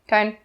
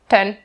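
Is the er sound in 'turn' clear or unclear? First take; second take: unclear; unclear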